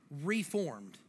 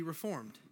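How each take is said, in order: First: "reformed" with a long, separated "re"; stress on RE. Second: Said in the usual way. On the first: Shown as a demonstration. Preacher breaking down "reformed" for church, stressed first syllable. Word repeated to stress its parts.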